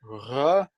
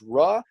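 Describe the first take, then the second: First: The R sound is rolled with a trill. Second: The R sound is plain, not rolled. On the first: "like you know the Spanish double R" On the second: "this can be pronounced "ra.""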